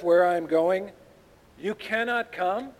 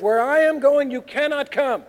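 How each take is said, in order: First: Mimicking his words with questioning rises; sarcastic. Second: Loud, high, forceful declaration; emphatic pronouncement. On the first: Shown as a demonstration. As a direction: quote it back as a doubtful, sarcastic question. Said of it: "I want you to read this sarcastically". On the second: Acted. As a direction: lay it down firmly with raised voice.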